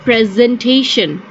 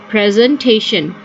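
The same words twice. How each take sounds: The two takes are said the same way.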